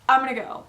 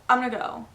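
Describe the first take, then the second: No difference in how they are said.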